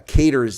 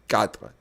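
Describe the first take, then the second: First: The word is said with a South African pronunciation. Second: The word is said with a French pronunciation. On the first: The speaker calls it wrong. "is a bastardization of it in South Africa" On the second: The speaker calls it right. "Donc on dit cadre"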